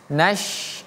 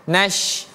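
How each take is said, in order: No difference in how they are said.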